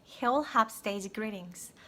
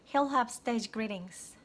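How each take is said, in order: Both takes have the same delivery.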